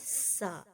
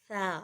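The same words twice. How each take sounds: First: The first sound has a whistling hiss. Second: The first sound is soft, without whistling. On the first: This is the Urdu way of saying the letter. The speaker calls it wrong. "इसमें सीटी वाला साउंड आता है" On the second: This is the Arabic way of saying the letter. The speaker calls it right. "बिल्कुल नरमी से पढ़ा जाएगा"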